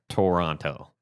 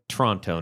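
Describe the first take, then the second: First: The name is said the way outsiders say it. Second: The name is said the way locals say it. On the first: The speaker calls it wrong. "not Toronto" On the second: The speaker calls it right. "Notice I said Toronto"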